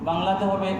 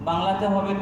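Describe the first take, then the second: The two takes are said the same way.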